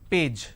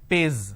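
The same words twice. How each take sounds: First: The word ends with a 'j' sound. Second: The word ends with a 'z' sound. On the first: The speaker calls it right. "the pronunciation is P, A, J" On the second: The speaker calls it wrong. "replace the J with a Z, Z"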